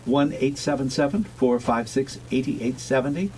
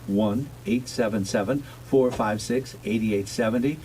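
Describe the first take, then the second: First: The number is read at a quicker pace. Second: The number is read at a slower pace.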